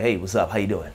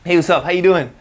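First: It sounds relaxed and laid back. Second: It sounds pushy and forward.

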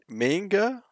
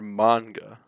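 First: The first A is pronounced as a hard A. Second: The first A is pronounced as a soft A. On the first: "Hard A" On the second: "soft A"

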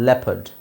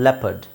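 Both takes have the same delivery.

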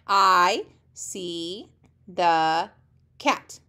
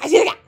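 First: It is read slowly, word by word. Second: It is read very fast.

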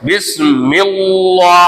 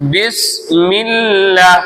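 First: The L is heavy and full-mouthed. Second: The L is light and thin. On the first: The speaker calls it wrong. "ஓத மாட்டோம்" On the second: The speaker calls it right. "அப்படிதான் ஓதுவோம்"

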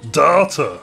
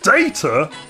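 First: The word sounds like 'daughter'. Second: The first vowel sounds like 'day'. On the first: "as data" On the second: "He pronounces the word data"

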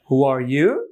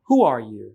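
First: The voice rises at the end. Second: Strong on who, then the voice falls. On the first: The speaker calls it wrong. "এভাবে শুনেছেন সাধারণত" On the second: The speaker calls it right. "বরং হয় হু আর ইউ। হু তো একটা জোর থাকে, তারপর আস্তে আস্তে"

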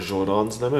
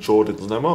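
First: The name Jordan is pronounced the French way. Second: The name Jordan is pronounced the English way.

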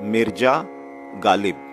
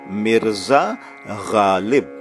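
First: The first word has a j sound instead. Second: The first word has a clear z sound. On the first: The speaker calls it wrong. "not Mirja Ghalib" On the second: The speaker calls it right. "We say Mirza Ghalib"

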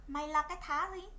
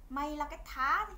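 The two takes are said the same way.

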